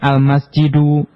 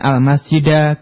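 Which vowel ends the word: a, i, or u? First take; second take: u; a. First: The word ends with a u vowel. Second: The word ends with an a vowel. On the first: "bukan al-masjidu" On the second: "bukan al-masjida"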